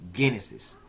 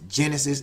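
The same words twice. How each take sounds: First: The word begins with a hard G sound. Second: The word begins with a soft 'jah' sound. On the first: "Some people pronounce it Genesis" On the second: "Some people pronounce it Genesis as Jah"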